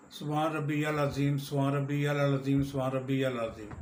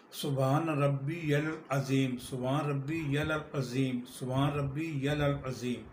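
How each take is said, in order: First: Quick repeated phrase with the words run together; rushed سبحان ربی العظیم; hurried recitation. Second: Slow, measured سبحان ربی العظیم with every syllable clear; careful recitation. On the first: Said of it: "رکوع میں پڑھتے ہیں". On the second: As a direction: say سبحان ربی العظیم deliberately, drawing out the vowels. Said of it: "عربی صحیح مفہوم میں پڑھیں گے تو". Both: Shown as a demonstration.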